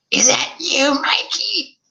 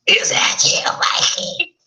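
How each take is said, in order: First: Put-on high, grating old mother; buzzsaw mother voice. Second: Put-on breathy, scratchy old woman rasp; raspy whispered old woman. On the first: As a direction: screech it like a buzzsaw. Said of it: "Her voice was like a buzzsaw". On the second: Shown as a demonstration. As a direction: redo it as a croaky hag. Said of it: "so I didn't do that right. It's more like a".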